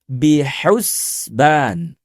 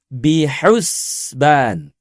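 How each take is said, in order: The two takes are said the same way.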